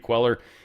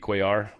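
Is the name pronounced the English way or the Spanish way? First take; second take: English; Spanish. First: The name is pronounced the English way. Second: The name is pronounced the Spanish way. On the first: "I keep feeling like everyone says Queller" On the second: "If he is, it would be Cuellar"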